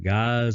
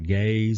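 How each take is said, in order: First: The word rhymes with eyes. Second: The word rhymes with days.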